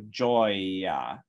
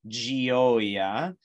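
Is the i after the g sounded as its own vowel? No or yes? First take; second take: no; yes. First: The g goes straight into the o vowel. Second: The i after the g is a separate vowel. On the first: The speaker calls it right. "It's modifying the G consonant to be J, and then you go right to the open O vowel" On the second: The speaker calls it wrong. "We don't say gioia"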